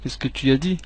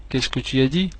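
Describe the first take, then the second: No difference in how they are said.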